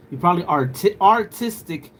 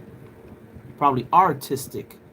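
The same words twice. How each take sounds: First: Louder and higher, punching the pun; emphatic repeat. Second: Drawn out, slow and deliberate; slowed wordplay. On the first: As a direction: hammer home artistic. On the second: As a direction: spell out the pun slowly. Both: Shown as a demonstration.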